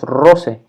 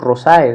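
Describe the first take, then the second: First: The ending is pronounced as a single e. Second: The ending is pronounced as two vowels. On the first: The speaker calls it right. "decimos rose" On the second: The speaker calls it wrong. "no decimos rosae"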